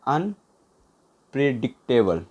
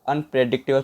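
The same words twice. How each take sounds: First: unpredictable slow, in separate chunks; slow, broken up. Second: Said in the usual way. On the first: Shown as a demonstration. Teacher dictating a word to write down, unpredictable slowly in pieces.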